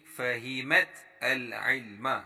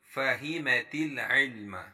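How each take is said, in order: First: The last two words are said separately. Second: The last two words are linked together.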